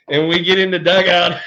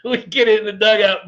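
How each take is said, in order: First: Said in the usual way. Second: Laughing through the words, slightly higher. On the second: Real, not acted. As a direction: repeat the line while still cracking up. Laughing retelling.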